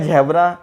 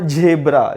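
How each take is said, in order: First: The first vowel sounds like 'a' in cat. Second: The first vowel sounds like 'e' in bed. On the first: The speaker calls it wrong. "आपण झॅब्रा म्हणतो का झॅब्रा नाही" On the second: The speaker calls it right. "आपण काय म्हणतो झेब्रा"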